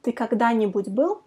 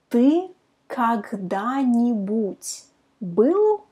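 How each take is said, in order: First: Quicker run at "Ты когда-нибудь был?"; fast practice take. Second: Slow, word by word; slow demo. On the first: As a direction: say it at natural speed, no gaps. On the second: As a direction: spell it out slowly, each word apart. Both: Shown as a demonstration. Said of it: "try to pronounce it fast".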